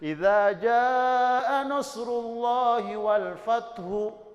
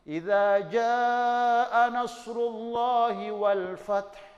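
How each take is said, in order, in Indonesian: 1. Kata terakhir berakhir dengan vokal tambahan. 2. Kata terakhir berakhir dengan konsonan mati. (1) "Salah itu" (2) "maka dibaca mati"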